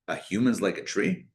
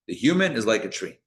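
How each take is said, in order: First: It is said as a questioning query. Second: It is said as a flat statement.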